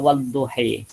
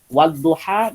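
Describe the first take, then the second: First: The final vowel is tilted toward 'i'. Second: The final vowel is a plain open 'a'.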